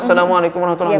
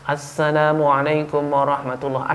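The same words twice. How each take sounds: First: The greeting begins without the 'as' sound. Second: The greeting begins with a clear 'as' sound. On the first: The speaker calls it wrong. "Tidak ada asnya" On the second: The speaker calls it right. "Ada asnya"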